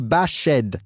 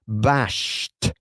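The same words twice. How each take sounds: First: The ending is said as a separate syllable. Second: The ending is said as a plain t sound. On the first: The speaker calls it wrong. "we don't say bashed" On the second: The speaker calls it right. "la ed se pronuncia como si fuese una T"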